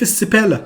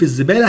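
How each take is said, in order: First: The word starts with an s sound. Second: The word starts with a z sound.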